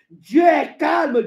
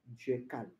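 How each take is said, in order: First: High, loud, drawn-out declaration; emphatic proclamation. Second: Very low, barely voiced statement; hushed. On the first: Acted. Preacher declaring God's calm to believers, emphatic. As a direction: proclaim it slowly and loudly. Emphatic take, later repeated hushed. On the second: Preacher on God's calm to believers, hushed. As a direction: drop right down, as if confiding.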